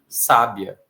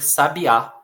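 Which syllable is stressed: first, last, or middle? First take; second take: first; last. First: The stress is on the first syllable. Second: The stress is on the last syllable. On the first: "essa palavra também poderia ser sábia" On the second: "para algumas outras pessoas poderia ser sabiá"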